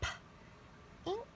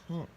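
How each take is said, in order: First: The word is said slowly, split into parts. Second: The word is said fast, as one blended whole. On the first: "Let's read it slowly" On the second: "Read it fast"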